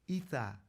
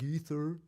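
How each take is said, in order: First: The word ends with an open 'ah' sound. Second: The word ends with an R sound. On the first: "we pronounce it ether, like E T H A" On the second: "we spell it E T H E R, like ether"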